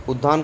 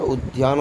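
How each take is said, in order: First: उद्यान said as "uddaan", without the y; उद्यान with a plain double d; wrong pronunciation. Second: उद्यान said as "ud-yaan", with a y glide; उद्यान with d joined to y; correct pronunciation. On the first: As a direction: drop the y glide in उद्यान. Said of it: "अशुद्ध पढ़ रहे हो". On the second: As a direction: sound the y after d in उद्यान. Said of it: "ध का ध बनता है". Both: Shown as a demonstration.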